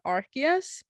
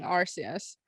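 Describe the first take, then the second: First: Arceus said as ark-ee-us, with a hard k; hard k pronunciation. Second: Arceus said as ar-see-us, with an s; soft s pronunciation. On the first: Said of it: "some are saying Arceus". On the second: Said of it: "Other reviewers are saying Arceus". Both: Shown as a demonstration.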